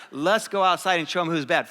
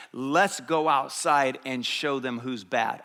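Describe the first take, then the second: First: Said in the usual way. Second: Slow, measured show of bravado; rally the boys like a cool tough guy; slow, deliberate swagger; tough-guy challenge. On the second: Retold or imitated. Young tough rallying his buddies.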